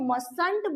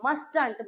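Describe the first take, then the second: First: The t in the middle is silent. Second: The t in the middle is pronounced. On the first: The speaker calls it right. "ये टी जो होता है इसको आपने बोलना नहीं होता" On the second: The speaker calls it wrong. "ये मस्टंट नहीं होता"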